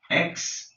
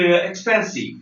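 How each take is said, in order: First: "Expensive" in three separate beats, ex, pen, sive; long pauses splitting "Expensive" into ex-pen-sive; syllable by syllable. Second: Said in the usual way. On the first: Shown as a demonstration. Teacher breaks a word down for learners, syllable by syllable. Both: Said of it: "three syllables".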